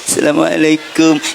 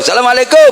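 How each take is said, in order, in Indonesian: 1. Salam ini terdengar sangat rendah hati dan penuh takzim. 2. Salam ini terdengar santai dan asal-asalan. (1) "santri ketemu kiai lebih-lebih" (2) "kalau ketemu temen di tengah jalan, bro"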